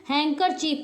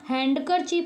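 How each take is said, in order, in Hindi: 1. d की ध्वनि silent रहती है। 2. d की ध्वनि साफ़ बोली जाती है। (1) "हैंकर चीफ पढ़ते हैं" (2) "हैंडकर चीफ नहीं पढ़ते हैं"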